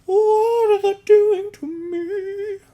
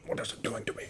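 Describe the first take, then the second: First: Very high, slow, louder wail; hammed-up drunken wail. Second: Breathless whispered worry; mock-frightened whisper. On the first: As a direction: stretch it out into a strained howl. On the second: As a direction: hush it like a secret fear. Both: Drunk self mock-panicking over tequila.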